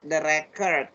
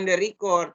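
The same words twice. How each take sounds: First: The stress is on the first syllable. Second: The stress is on the second syllable. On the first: It is read as the noun. The speaker calls it right. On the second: It is read as the verb. The speaker calls it wrong. "bacanya bukan the record"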